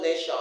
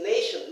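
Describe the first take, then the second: First: Nation ending in a full-vowel SHON; wrong "nay-shon". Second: Said in the usual way. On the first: Shown as a demonstration. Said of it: "not nation". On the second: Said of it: "It's nation, not nation".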